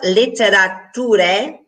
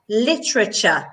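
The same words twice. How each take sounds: First: Every written syllable is pronounced fully. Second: A middle syllable is dropped and reduced. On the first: "It's spelled literature" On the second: "but we say literature"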